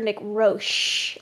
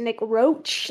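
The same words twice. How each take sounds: First: The name ends with a soft sh sound. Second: The name ends with a hard ch sound. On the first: "like shh" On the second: "like cockroach"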